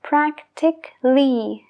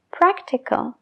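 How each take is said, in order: First: "Practically" said prak-tik-ly, no A before the L, slow; a dropped. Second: "practical" with the A before the L spoken, prak-ti-kal; second a sounded. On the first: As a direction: swallow the A in "Practically". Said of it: "se deja de pronunciar". ("Practically" sin la A, praktikli) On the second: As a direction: say every syllable of "practical". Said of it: "sí que se pronuncia practical". ("practical" con la A pronunciada) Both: Shown as a demonstration.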